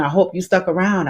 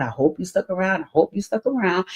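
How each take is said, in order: First: Said in the usual way. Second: Repeated much softer, fading away; soft echo. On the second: Real, not acted. Host teasingly echoing to viewers, softer each time. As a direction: drop it to a teasing hush.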